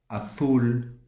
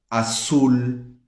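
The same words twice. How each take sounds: First: The z is pronounced like a th sound. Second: The z is pronounced like an s sound. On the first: This is how people from Spain say it. "Na Espanha vai ser" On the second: This is how Latin Americans say it.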